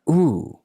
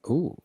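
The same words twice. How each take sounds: First: It is said with exaggerated, over-the-top energy. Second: It is said with normal energy.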